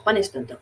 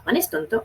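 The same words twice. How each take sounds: First: It is said with plain falling statement intonation. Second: It is said with questioning intonation. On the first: It states something as fact. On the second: It asks whether something is true.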